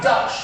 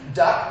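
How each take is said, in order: First: The name ends with a 'ch' sound. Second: The name ends with a hard 'k' sound. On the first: "like the word such" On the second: "like a hard K sound for the C H"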